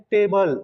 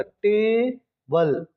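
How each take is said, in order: First: Said in the usual way. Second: table slowly broken as टे, बल; split into syllables. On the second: Shown as a demonstration. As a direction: draw out टे, pause, then बल. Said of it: "इस word में दो syllable".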